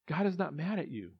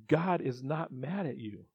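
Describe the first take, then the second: First: Said in the usual way. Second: Slow emphatic. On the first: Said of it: "first take". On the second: Real, not acted. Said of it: "repeated for emphasis".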